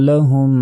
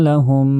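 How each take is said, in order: No difference in how they are said.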